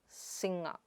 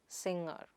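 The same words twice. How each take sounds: No difference in how they are said.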